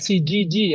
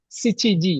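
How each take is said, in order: First: The middle syllable has a 'ji' sound. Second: The middle syllable has a 'chi' sound. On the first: The speaker calls it wrong. "bukan sijiji ya" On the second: The speaker calls it right. "Sichiji, bukan sijiji ya"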